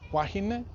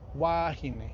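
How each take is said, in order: First: The vowel is said short. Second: The vowel is said lengthened. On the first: It refers to one woman. "one wahine" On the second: It refers to several women. "the vowel is lengthened in the plural"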